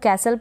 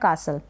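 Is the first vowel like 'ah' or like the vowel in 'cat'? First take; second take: cat; ah. First: The first vowel sounds like the 'a' in cat. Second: The first vowel sounds like a long 'ah'. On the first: "ए को ए के रूप में" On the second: "या फिर आ के रूप में"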